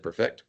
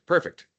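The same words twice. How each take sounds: First: "perfect" stressed on its second syllable, per-FECT; wrong syllable stressed. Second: Said in the usual way. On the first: Shown as a demonstration. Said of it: "Put the wrong emphasis". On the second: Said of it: "I don't know why I said perfect".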